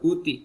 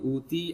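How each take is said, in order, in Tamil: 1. முதல் உயிர் குறில். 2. முதல் உயிர் நெடில். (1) "முதல்ல சொல்லும் போது ஷார்ட்டா சொல்லக்கூடாது. ஊத்தி அப்படி சொல்லக்கூடாது" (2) "அங்க நீட்டணும்"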